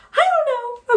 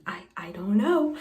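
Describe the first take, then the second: First: Much higher and louder, exasperated; overwhelmed squeal. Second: Whispered. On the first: Reader overwhelmed by a confusing romance, squealing. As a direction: burst out after the whisper, flustered. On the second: Overwhelmed by the book's plot. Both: Real, not acted.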